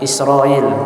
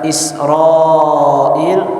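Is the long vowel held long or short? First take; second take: short; long. First: The long vowel is held only briefly. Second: The long vowel is held for longer.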